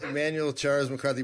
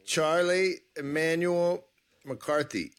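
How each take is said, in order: First: Charles stressed, full name said carefully in the right order; corrected name. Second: Slow, careful try at the guest's full name, in the wrong order. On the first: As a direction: get the guest's name right this time, leaning on Charles. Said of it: "I gotta get it right". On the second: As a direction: say the name slowly, testing it out. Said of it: "No, Emmanuel Charles McCarthy". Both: Real, not acted.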